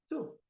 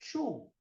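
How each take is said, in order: First: The word starts with a crisp 't' sound. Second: The word starts with a 'ch' sound. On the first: The speaker calls it right. "é seco o som" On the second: The speaker calls it wrong. "muita gente fala two"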